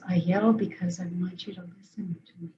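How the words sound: It is said in a quiet, calm tone.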